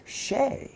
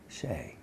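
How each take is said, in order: First: SHAY pitched high, rising at the end; imitating someone checking the name SHAY; questioning name. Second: SHAY low and soft, falling; understated confirmation on SHAY; confirming name. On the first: Director greets him, questioning the name. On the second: Retold or imitated. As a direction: answer with SHAY, quietly dropping in pitch. He confirms his own name.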